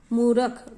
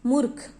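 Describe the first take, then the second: First: मूर्ख as मूरक, extra vowel; मूर्ख split wrongly; wrong pronunciation. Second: मूर्ख short with a half र and aspirated ख; मूर्ख the right way; correct pronunciation. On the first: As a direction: mispronounce मूर्ख on purpose. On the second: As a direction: say मूर्ख crisply. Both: Shown as a demonstration. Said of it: "तो मूर्ख नहीं होता".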